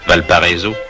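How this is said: The name is said with French pronunciation. The speaker calls it wrong. "Ce que l'on prononce affreusement à la française"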